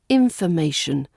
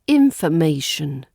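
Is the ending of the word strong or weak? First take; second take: weak; weak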